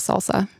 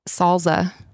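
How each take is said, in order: First: The middle consonant is an S sound. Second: The middle consonant is a Z sound. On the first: This is the usual way to say it. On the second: Someone else says it this way.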